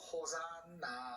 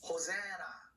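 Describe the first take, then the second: First: The N sound is pronounced twice, syllable by syllable. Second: The N sound is pronounced only once. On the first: The speaker calls it wrong. "요 호 여기까지 잘라서 산, 나" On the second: The speaker calls it right. "자음이 두 개가 나란히 있으면은 발음을 하나만 해요"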